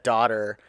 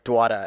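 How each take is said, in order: First: The word is said in a plain accent. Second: The word is said in a New York accent. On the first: "somebody said daughter" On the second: "he was from New York and he was like Dwada"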